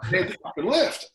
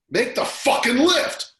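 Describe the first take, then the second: First: High, loud shouted echo of the wife; retold yell. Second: Fierce, high, slow shout; wife's yell. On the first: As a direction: shout it again, almost cracking. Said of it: "never seen anyone sprint up". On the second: Retold or imitated. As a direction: bark the order at him full force. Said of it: "she leans over and goes".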